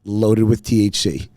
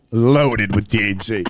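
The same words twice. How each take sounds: First: Said in the usual way. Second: LOADED drawn out slowly, punched for the joke; emphatic repeat. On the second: Real, not acted. Friend confirming the spiked treats for laughs, slow emphatic repeat. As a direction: stretch "Loaded" and savor the punchline.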